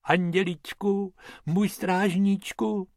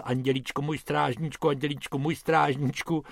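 First: Pious high-pitched poacher's prayer; praying. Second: Quiet, droning prayer on repeat; soft monotonous babbled praying; rattled-off muttering. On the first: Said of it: "Pytlák klečel před lvem a modlil se". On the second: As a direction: mumble the prayer round and round. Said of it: "který pořád dokola drmolil". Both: A narrator's reading.

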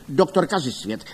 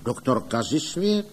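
First: Falling, higher-pitched jibe; scornful naming. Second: Puzzled echo, rising at the end; wondering, lifted final syllable; questioning repeat. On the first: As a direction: state the name with a falling end. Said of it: "ptal se Ostrohradský". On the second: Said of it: "opakovali páni Radové Kdojek a Mužík". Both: A narrator's reading.

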